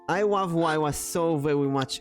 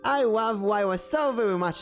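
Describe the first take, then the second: First: It is said at a normal voice pitch. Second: It is said at a slightly raised pitch. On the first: "Just say that in your normal voice" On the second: "Now increase the pitch just slightly"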